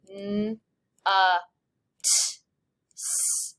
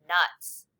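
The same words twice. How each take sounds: First: "N, U, T, S" as bare phonemes with pauses; stretched out sound by sound. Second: Said in the usual way. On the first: Shown as a demonstration. Teacher segmenting nuts for students, sound by sound. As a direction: sound out nuts, short u, hissed final s. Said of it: "Stretch it out".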